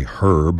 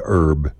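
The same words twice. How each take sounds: First: "herb" with a clear h at the start; British herb. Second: "herb" with a silent h, like "erb"; Texan herb. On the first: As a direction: sound the h in "herb". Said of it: "like the British do". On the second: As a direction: drop the h: "erb". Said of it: "We say herb". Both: Shown as a demonstration.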